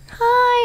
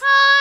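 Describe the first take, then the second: First: It is said weakly, with little power. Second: It is said powerfully, with more force.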